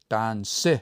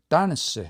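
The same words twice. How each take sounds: First: The stress is on the last syllable. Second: The stress is on the first syllable. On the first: It sounds like a two-syllable word. The speaker calls it wrong. "they will have the stress on the last one" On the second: It shows the word has three syllables. The speaker calls it right. "The stress is on the first one"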